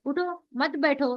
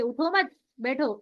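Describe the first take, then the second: First: उठो, then a stop, मत बैठो together; उठो set apart from मत बैठो; pause after उठो. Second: उठो मत together, a stop, then बैठो; slow phrase with बैठो set apart after मत; pause after मत. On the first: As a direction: break after उठो and run मत straight into बैठो. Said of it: "हम उठो पे रुक रहे हैं". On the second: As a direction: join उठो to मत and break before बैठो. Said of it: "अगर हम मत पे यहाँ पर रुक रहे". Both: Shown as a demonstration.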